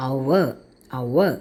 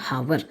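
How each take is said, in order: First: "our" low, starting on the vowel, no H; correct pronunciation. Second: "hover" with a sounded H; wrong pronunciation. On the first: Teacher gives students the right form, "our" with no h. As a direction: say "our" twice with a silent H. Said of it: "The right pronunciation is". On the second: Teacher rejects a wrong form, "hover" with H sounded. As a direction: put an h sound at the front of "hover". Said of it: "ഹവർ തെറ്റാണ്". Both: Shown as a demonstration.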